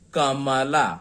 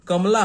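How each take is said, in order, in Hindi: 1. बीच के व्यंजन के बाद पूरा स्वर आता है। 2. बीच के व्यंजन के बाद कोई स्वर नहीं आता। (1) "ये सुनने में अच्छा नहीं लगता है" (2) "कमला हम कहते हैं"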